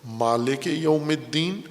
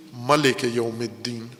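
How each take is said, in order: First: مالک with a long "maa" after the m, recited slowly; مالک یوم الدین, stretching the first vowel of مالک as in recitation; Quranic recitation reading. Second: ملک said short as "malik", with no long vowel after the m, recited slowly; ملک یوم الدین, clipping the first vowel of ملک short; Quranic recitation reading. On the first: Teacher demonstrating the first reading of Surah Fatiha, slow recitation. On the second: Teacher demonstrating the second reading of Surah Fatiha, slow recitation. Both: Shown as a demonstration. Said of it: "قاریان اعظام دو طرح سے اس کو پڑھتے ہیں".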